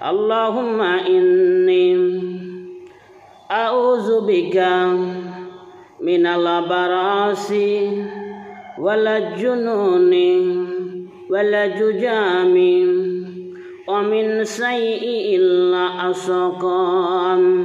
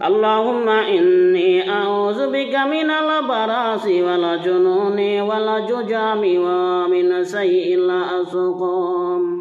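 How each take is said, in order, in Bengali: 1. এটা ছোট ছোট অংশে ভেঙে, মাঝে মাঝে থেমে পড়া হয়। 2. এটা পুরোটা একটানা, এক ধারায় পড়া হয়। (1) "ভেঙ্গে ভেঙ্গে বলি" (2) "পরিপূর্ণ কীভাবে বলতে হবে"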